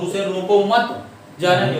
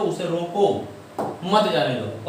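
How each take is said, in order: First: There is a pause after मत. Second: There is a pause after रोको.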